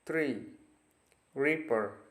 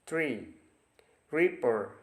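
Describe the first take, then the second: No difference in how they are said.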